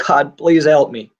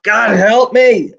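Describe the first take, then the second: First: Said in the usual way. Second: A high, slow, loud cry for help; desperate scream. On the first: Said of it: "The moment I screamed out". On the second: Retold or imitated. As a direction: cry out to God with everything left. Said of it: "And I just screamed out".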